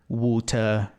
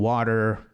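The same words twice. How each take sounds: First: Water with a clear hard T and no final R, wutɐ; British crisp T. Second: Water with the T tapped like a quick D, wʊder; American flapped T. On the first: Teacher contrasting British and American water. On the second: Teacher contrasting American and British water. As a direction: flap the T in water, American style. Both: Shown as a demonstration. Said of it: "é bem diferente".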